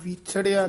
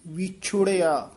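First: The second syllable has no 'u' vowel. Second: The second syllable has an 'u' vowel. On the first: The speaker calls it wrong. "ਵਿਛੜਿਆ ਨਹੀਂ ਕਹਿਣਾ" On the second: The speaker calls it right. "ਔਂਕੜ ਹੈ"

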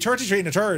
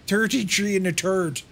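First: It is said in his normal voice. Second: It is said in a mocking imitation.

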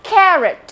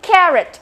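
The two takes are said the same way.

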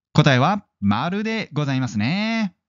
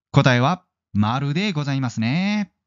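The two takes are said the same way.

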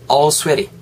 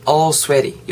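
No difference in how they are said.

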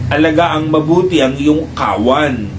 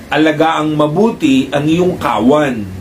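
Both takes have the same delivery.

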